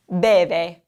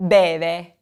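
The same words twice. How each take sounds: First: Beve, clear; BEH-veh; teacher modeling beve; model for repeating. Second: Beve again, firmly; BEH-veh once more; repeat for class. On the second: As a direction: repetition of beve. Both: Shown as a demonstration.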